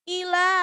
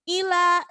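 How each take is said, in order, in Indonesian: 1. Vokal pertama dipotong pendek. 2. Vokal pertama dipotong pendek.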